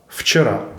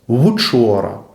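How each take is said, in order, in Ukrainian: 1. Перший приголосний — звук, схожий на «v», при якому нижню губу прикушують. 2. Перший приголосний — округлий звук, схожий на «w». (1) "ледь помітно прикусіть нижню губу на початку слова" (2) "Саме це посилення звучності і наближає вимову приголосного «в» до голосного «у»"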